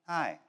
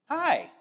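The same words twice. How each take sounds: First: The greeting sounds low and sad. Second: The greeting sounds bright and cheerful.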